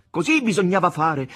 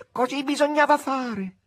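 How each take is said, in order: First: Loud proclamation. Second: Higher, distant echo of the chorus; echoing retinue. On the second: (eco del seguito, più acuto e lontano) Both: Acted. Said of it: "ripeté come un eco il seguito".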